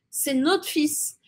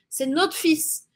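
First: The words are shortened and run together. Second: The words are shortened and run together.

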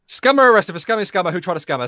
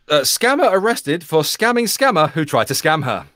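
First: The sentence is read very quickly. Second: The sentence is read at a normal pace.

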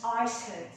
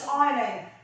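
First: An S sound is heard in the middle. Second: No S sound is heard in the middle. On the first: The speaker calls it wrong. "we don't pronounce Iceland" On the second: The speaker calls it right. "so the S is silent"

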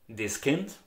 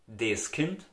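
Both takes have the same delivery.

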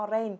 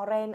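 No difference in how they are said.

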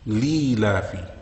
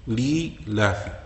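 First: The word drops the hamza and ya sounds. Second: The same.

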